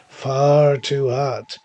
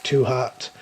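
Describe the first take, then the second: First: Slow, louder, leaning hard on "far"; "far" hit loud with a falling end; stress on far. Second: Said in the usual way. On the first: A narrator's reading. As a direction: drag out "Far too hot", punching "far". Narrator repeats, stressing heat.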